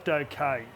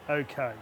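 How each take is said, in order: The two takes are said the same way.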